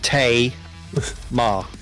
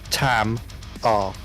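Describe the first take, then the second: First: The first syllable sounds like 'tay'. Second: The first syllable sounds like 'tam'. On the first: The speaker calls it right. "it's pronounced Tay Ma" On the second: The speaker calls it wrong. "not Tam R"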